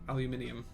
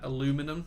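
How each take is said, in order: First: The word has five syllables, ending in -inium. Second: The word has four syllables, ending in -inum. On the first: "That's that's the way it was" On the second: "as the Americans say"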